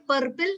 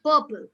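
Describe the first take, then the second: First: "purple" as PUR-pil with a spoken R; R sounded. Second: "purple" as PUH-pul, no R; silent R. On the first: Teacher shows what not to say, R sounded. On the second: Teacher models the approved form, R silent. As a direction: drop the R in "purple". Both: Shown as a demonstration. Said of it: "Do we say purple?".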